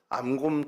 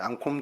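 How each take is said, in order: First: The second syllable starts with a plain k. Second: The second syllable starts with an aspirated k. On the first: The speaker calls it wrong. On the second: The speaker calls it right.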